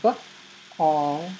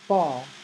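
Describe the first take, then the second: First: The word is split into two separated sounds. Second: The word is said smoothly as one whole.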